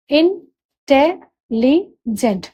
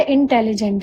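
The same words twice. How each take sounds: First: intelligent very slowly as इं... टे... लि... gent; four separate beats in intelligent with long pauses; syllable by syllable. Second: Said in the usual way. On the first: Shown as a demonstration. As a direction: spell out the sounds इं, टे, लि, gent one at a time. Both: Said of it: "इसमें भी चार syllable हुए".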